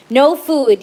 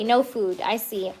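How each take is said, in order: First: Loud, sudden no food; quick louder no food; surprised. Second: Soft, settled no food; softer no food, letting it go; quiet acceptance. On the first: Reading the cards aloud. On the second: Accepting the card's message. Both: Real, not acted.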